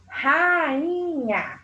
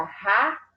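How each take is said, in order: First: "rainha" stretched out slowly as one word; palavra alongada. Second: "rainha" broken into ra - i - nha with pauses; separação silábica. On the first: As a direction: draw out the vowels of "rainha" without breaking it. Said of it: "quando eu separo a sílaba dessa palavra". ("rainha" esticado, sem pausas) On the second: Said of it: "Fica ra-inha". ("rainha" separado em sílabas: ra, i, nha) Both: Shown as a demonstration.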